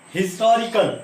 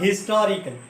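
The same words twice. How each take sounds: First: The word starts with a clear h sound. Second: The word starts with a vowel, no h sound. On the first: "हम ह की आवाज दे रहे हैं" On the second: "हम एच को silent बना देते हैं"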